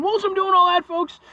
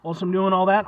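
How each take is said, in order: First: Comic high-pitched squeal; squeaky high voice. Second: Said in the usual way. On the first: Acted. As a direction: jump way up high and louder. Repeated phrase, squeaky high take.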